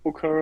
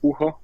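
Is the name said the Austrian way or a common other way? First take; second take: common other; Austrian. First: The name is said the common non-Austrian way. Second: The name is said the Austrian way. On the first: This is how most people say the name. The speaker calls it wrong. "the most people they say Booker" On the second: This is how the name is said at home. The speaker calls it right. "in Austria you say Bucher"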